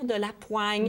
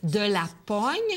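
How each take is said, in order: First: The vowel is a 'wa' sound. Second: The vowel is a plain 'o' sound. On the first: This is the modern pronunciation. "voyant le O I, s'est mis à dire de la poigne" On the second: This is the old pronunciation. "On ne prononce plus maintenant comme ça, mais autrefois, on le prononçait"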